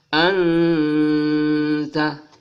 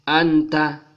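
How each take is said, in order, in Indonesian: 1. Bunyi n ditahan dengan dengung hidung yang lembut. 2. Bunyi n pendek, tanpa dengung hidung. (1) "dia harus berdengung samar-samar" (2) "Tidak boleh dibaca anta"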